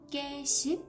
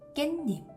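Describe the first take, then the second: First: The second syllable starts with an ss sound. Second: The second syllable starts with an n sound. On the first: The speaker calls it wrong. "The pronunciation is not 깨씹" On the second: The speaker calls it right. "but 깻잎"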